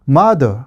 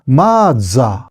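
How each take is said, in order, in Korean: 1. 영어 같은 발음으로 말합니다. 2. 일본식 발음으로 말합니다.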